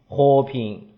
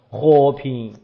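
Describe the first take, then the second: First: Low tones, as in Hubei speech. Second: Low tones, as in Hubei speech.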